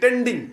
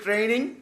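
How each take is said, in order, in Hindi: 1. यह सादे 't' से शुरू होता है और इसमें 'nd' है। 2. यह 'tr' से शुरू होता है और इसमें सिर्फ 'n' है। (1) "ট্রেনিং তো বলতে পারে না ইংরেজি, বলে কি টেন্ডিং" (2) "ইংরেজিতে বলি ট্রেনিং"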